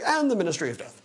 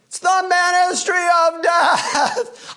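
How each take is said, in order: First: It is said quietly and plainly. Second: It is said loudly, almost yelled.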